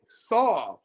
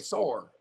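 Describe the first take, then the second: First: The word ends in a plain vowel. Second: The word ends with an added r sound. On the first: "they won't say saw" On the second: "They'll say sore"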